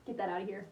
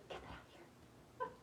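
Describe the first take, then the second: First: Said in the usual way. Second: Slow, soft breathy whisper to herself; whispering while fighting tears. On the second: Real, not acted. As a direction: whisper it slowly, shooing the tears away. Pushing away tears, repeated whispered.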